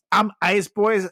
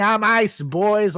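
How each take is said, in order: First: Mock shout. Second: Mock yell. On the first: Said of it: "He's shouting".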